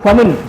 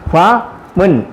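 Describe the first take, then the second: First: Said quickly with the syllables run together. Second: Said slowly with a break between syllables.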